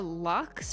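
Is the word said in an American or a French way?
American. It is said with an American pronunciation. The speaker calls it wrong. "How do people say it in America? Lux"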